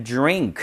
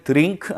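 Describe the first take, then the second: First: "drink" said as "jrink"; affricated dr. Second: "drink" said as "deu-rink", d and r apart; wrong Korean-style dr. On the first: Teacher modelling the word for learners, "drink" starting like "jr". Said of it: "그래서 drink가 됩니다". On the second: Teacher showing what never to say, "drink" as "deu-rink". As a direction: put a vowel between d and r in "drink". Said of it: "절대 drink 아니죠". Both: Shown as a demonstration.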